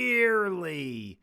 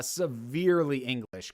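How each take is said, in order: First: "severely" stretched out long; stress on severely. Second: Said in the usual way. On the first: Real, not acted. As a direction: drag out "severely" for comic weight. Stretches the word for comic emphasis.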